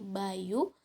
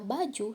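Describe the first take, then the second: First: The middle consonant is a soft Y sound. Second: The middle consonant is a hard J sound. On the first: This is how Javanese speakers say it. "bunyi J diucapkan dengan lebih lembut seperti bunyi huruf Y" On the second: This is the standard Indonesian pronunciation. "dalam bahasa Indonesia, kata baju diucapkan dengan bunyi J yang keras"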